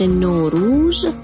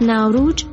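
First: It is said in an Iranian pronunciation. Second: It is said in an Indian pronunciation. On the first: "در فارسی ایران تلفظ نوروز" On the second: "از ناوروج در لکنو هند"

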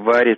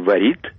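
First: The stress is on the first syllable. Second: The stress is on the second syllable. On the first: This is the current way of saying it. "мы теперь говорим" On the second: This is the older way of saying it. "Раньше говорили"

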